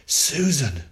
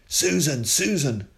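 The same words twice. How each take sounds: First: Loud, high, frightened call; father crying out in fear as he reaches her; fearful cry. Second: Loud, high call across the yard; father shouting for Susan from the gate. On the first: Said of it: "he cried, trembling with fear". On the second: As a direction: call her name from the gate. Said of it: "shouted Tom from the gate". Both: A narrator's reading.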